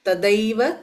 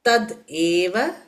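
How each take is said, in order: First: The two words are fused into one sound. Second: The two words are said separately. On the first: "சேர்த்து சொல்லும் போது ததைவன் தான் சொல்லுவோம்" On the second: "split"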